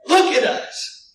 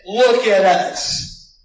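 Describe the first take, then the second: First: High, loud forceful order; forceful command. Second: Slow, loud command of authority; commanding look at us. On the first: Apostle ordering the beggar, higher and louder. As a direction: bark it with authority. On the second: Apostle commanding the beggar, slow and loud. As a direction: make him look with authority. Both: Acted.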